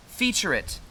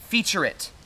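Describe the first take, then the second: No difference in how they are said.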